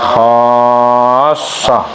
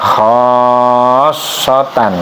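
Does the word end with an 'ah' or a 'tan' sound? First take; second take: ah; tan. First: The word ends with a short 'ah' sound. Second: The word ends with a full 'tan' syllable. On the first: This is how the word is read aloud here. "tapi dibacanya khassah gitu ya" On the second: This is how the word is written. "tulisannya khassotan gitu ya"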